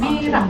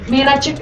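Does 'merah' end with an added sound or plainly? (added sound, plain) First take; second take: plain; added sound. First: The word ends plainly with no added sound. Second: The word ends with an extra c-like sound. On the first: "dia juga melafalkan merah gitu" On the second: "Tapi gini, merah cek gitu. ... ada C-nya gitu"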